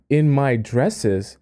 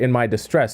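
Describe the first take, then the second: First: "in my dresses" read with "dresses" said like the plural of dress; "in my dresses", the word "dresses" sounding out two syllables, dress-es; the misreading "in my dresses", with "dresses" clearly pronounced as dress-es. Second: "in my distress" with "distress" said as dis-TRESS, a clear s before the t; fixing the misread line: "in my distress", "distress" stressed on its second syllable; the corrected reading "in my distress", with "distress" in place of "dresses". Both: Real, not acted. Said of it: "Sorry, not in my dresses".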